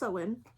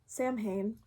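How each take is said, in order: First: The word is said with a W-like sound. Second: The word is said without any W sound. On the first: The speaker calls it right. "So it's pronounced Samhain" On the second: The speaker calls it wrong. "but if I say Samhain, that's why. Because I'm still trying to correct myself"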